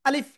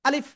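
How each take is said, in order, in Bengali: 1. শব্দের স্বরধ্বনিগুলো ছোট রাখা হয়। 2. শব্দের স্বরধ্বনিগুলো ছোট রাখা হয়।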